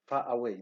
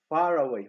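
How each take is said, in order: First: The vowels meet with no R sound between. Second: An R sound links the two words. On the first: The speaker calls it wrong. "We do not say far away" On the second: The speaker calls it right. "we say far away"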